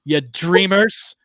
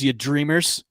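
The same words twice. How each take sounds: First: "dreamers" stretched slow and raised higher; drawn-out DREAMERS. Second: Said in the usual way. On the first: Acted. Host giving a mock pep talk, "dreamers" drawn out. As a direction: draw out "dreamers" like a hammy motivator.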